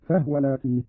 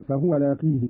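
First: No vowel after the h in "فهو"; silent vowel on ha. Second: Said in the usual way. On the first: Shown as a demonstration. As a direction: say "فهو" as fahwa. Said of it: "بإسكان الهاء هكذا". (إسكان الهاء في "فهو")

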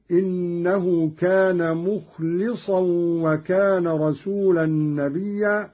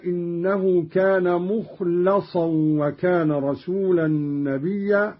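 First: مخلصا said as "mukhlisan"; short i after the l of مخلصا; kasra on lam. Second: Said in the usual way. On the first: Shown as a demonstration. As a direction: recite مخلصا with li, not la. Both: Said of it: "قرأ قالون بكسر اللام".

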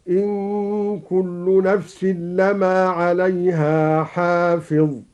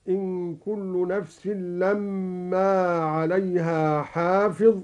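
First: Slow recitation, no doubling of the م in لما; light meem in لما. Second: Said in the usual way. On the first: Shown as a demonstration. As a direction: recite لما as "lamaa" with a single short m. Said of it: "بتخفيف الميم". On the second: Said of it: "قرأ الدوري بتخفيف الميم".

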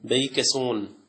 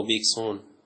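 First: بيكسون read with a long "bei" in the first syllable; بيكسون drawn out as "bei-ke-sun". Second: بيكسون said clipped as "bik-sun"; بيكسون with a short "bi" and no middle vowel; alternate reading. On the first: Teacher reading a bird name aloud to students, first variant. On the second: Teacher offering students the other reading of the name. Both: Shown as a demonstration. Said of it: "أو بيكسون".

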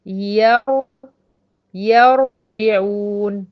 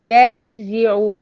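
First: يرجعون with a thick, full-mouthed ر, drawn out slowly; teacher's stretched heavy ra in يرجعون. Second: يرجعوا with a thin, light ر, drawn out and loud; teacher's slow thinned ra in يرجعوا. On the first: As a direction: say يرجعون with the ر made heavy, louder and slow. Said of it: "هي طبعًا مفخمة". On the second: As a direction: make the ر in يرجعوا light and clear, slowly. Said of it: "وهرققها". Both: Shown as a demonstration.

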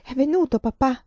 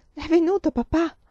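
First: Clear, insistent, louder; said clearly. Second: Sudden high frightened question; startled question. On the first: Girl repeating clearly that her father came. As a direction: say it plainly and firmly this time. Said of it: "ripeté chiaramente". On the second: Feverish girl waking, asking for her father, startled. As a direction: wake with a start and ask. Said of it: "aprì gli occhi come spaventata". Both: Acted.

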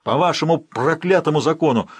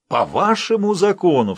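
First: Loud, raised cry with вашему falling hard; repeating the cry with more venom; angry outcry. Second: High, loud shout, hit on вашему; angry outcry. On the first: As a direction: curse their law out loud. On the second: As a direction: spit back вашему in contempt. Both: Acted. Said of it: "вскричал Ролло".

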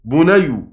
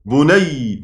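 First: بني pronounced "bunayw", with a w after the y; original root form. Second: بني as "bunayy", holding the doubled final y. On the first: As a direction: sound out the unmerged w in بني: bunayw. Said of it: "أصل الكلمة". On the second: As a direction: lean on the merged y ending of بني: bunayy. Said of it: "فحصل التشديد اللي انتوا". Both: Shown as a demonstration.

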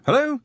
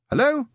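First: Much higher, louder hello with a rise; a tinny voice down the line; voice on the phone again. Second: Much higher, louder questioning hello; a tinny voice down the line; voice on the phone. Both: A narrator's reading. The receiver calling to a silent caller, high and questioning. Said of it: "said the receiver".

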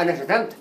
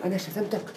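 First: أنا شتمتك stated as a flat fact; a simple admission, no question in it; plain statement. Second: أنا شتمتك asked with a rising end, stress on أنا; a doubting question, voice rising at the end; questioning tune. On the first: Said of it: "هنا إقرار جملة خبرية". ("أنا شتمتك" كجملة خبرية عادية) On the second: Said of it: "ده استفهام أهو". ("أنا شتمتك" بنبرة استفهام صاعدة) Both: Shown as a demonstration.

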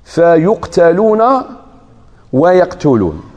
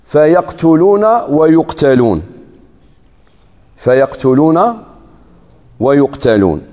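First: "فيقتلون" with a passive-voice u vowel first, said slowly; reversed reading. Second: "فيقتلون" with an active-voice a vowel first, said slowly; first reading. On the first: Teacher reciting the reversed reading for students. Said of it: "قراءة أخرى بالعكس". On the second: Teacher reciting the verse order for students. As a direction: stretch "فيقتلون ويقتلون" so the vowel change is heard. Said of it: "في قوله تعالى". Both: Shown as a demonstration.

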